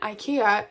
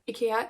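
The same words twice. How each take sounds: First: It is pronounced the common English way. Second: It is pronounced the Swedish way. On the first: This is how most listeners say it. "most common maybe for most of you" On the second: This is how the speaker's family says it. "the way that we pronounce it in Sweden"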